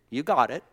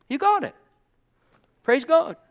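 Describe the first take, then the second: First: Said in the usual way. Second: High, loud cry of praise; exultant exclamation. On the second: Real, not acted. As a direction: call it out way up high, punchy and short. Repeats it as an exclamation.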